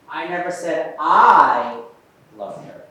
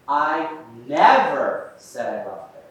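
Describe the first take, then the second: First: The stress falls on the first word I. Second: The stress falls on the word never. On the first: Someone else said it. "Let's try the I" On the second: It was never said at any time. "we put that emphasis on the word never"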